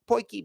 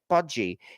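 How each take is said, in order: First: The word sounds like poy-kee. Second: The word sounds like podgy. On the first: The speaker calls it right. "it's pronounced Poiki" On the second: The speaker calls it wrong. "I was pronouncing it Podgy because that's what it looks like"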